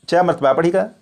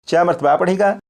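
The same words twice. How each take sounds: The two takes are said the same way.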